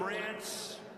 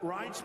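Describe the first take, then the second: First: The vowel sounds like the one in 'ran'. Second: The vowel sounds like the one in 'rye'. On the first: The speaker calls it wrong. "They called him Rance" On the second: The speaker calls it right. "now everybody pronounces his name right"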